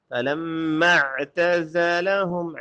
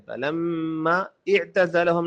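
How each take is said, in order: First: فلما اعتزلہم joined as falamma'tazalahum; silent alif. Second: فلما اعتزلہم split, with a fresh i- on the second word; wrong, alif pronounced. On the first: Teacher corrects the mistake for learners, linked فلما اعتزلہم. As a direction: glide from the mm straight into a clear ain in فلما اعتزلہم. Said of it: "یہ الف silent ہے". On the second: Teacher shows learners the mistake, sounded alif in اعتزلہم. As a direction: separate falamma and i'tazalahum. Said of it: "فلما اعتزلہم نہیں ہے". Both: Shown as a demonstration.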